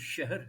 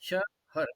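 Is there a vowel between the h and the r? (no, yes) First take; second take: no; yes. First: No vowel is heard between h and r. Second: A short vowel is heard between h and r. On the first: The speaker calls it right. "ये शहर है, तो इसको आप ए, दो एक बोलिए" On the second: The speaker calls it wrong. "शहर यानी एक दो बोलते हैं"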